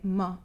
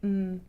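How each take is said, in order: First: The m sound ends with a short uh vowel. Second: The m sound is short with no vowel. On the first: The speaker calls it wrong. "you're adding extra sounds" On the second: The speaker calls it right. "instead of saying mm"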